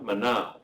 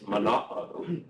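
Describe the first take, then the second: First: The final vowels glide together as one diphthong. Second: A glottal stop separates the final two vowels. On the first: The speaker calls it wrong. "you don't pronounce as though it's a diphthong" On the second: The speaker calls it right. "it is mana'o"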